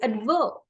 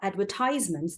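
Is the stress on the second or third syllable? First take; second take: second; third. First: The stress is on the second syllable. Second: The stress is on the third syllable. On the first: This is the British way of saying it. "when you stress on the verb, it is British" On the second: This is the American way of saying it. "the stress is on ties. That is the American English"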